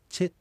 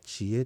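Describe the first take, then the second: First: It is said as one syllable, che. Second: It is said as two syllables, chi-e. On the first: This is the form used in other dialects. "チェということで小さい絵に変わっちゃうと" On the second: This is the Shizunai dialect form. "静内方言では知恵という言い方をしますが"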